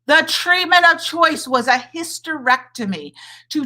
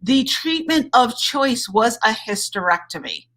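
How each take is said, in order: First: "treatment" stressed, pitched higher; emphatic repeat. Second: Said in the usual way. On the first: Shown as a demonstration. Doctor repeating it to outraged viewers, emphatic. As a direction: hammer home "treatment of choice".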